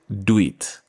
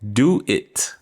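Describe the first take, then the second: First: The two words are merged into one. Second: The two words are said separately. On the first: "We merge them together and pronounce it" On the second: "two word phrase"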